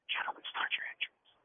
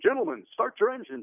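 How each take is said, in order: First: It is said quietly and slowly. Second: It is said loudly and with energy.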